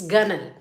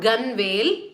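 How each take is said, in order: First: The word is said unlike its spelling, ending reduced. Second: The word is said the way it is spelled. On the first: The speaker calls it right. "it's gunwale" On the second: The speaker calls it wrong. "It's not gunwale"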